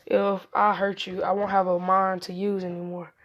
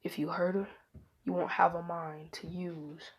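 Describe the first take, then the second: First: Repeating the threat out loud; a loud, plain retelling of the whispered threat. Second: Menacing whisper. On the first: Retold or imitated. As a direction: say it back boldly for all to hear. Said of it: "he said". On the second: Acted. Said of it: "He walked in Naruto's ear".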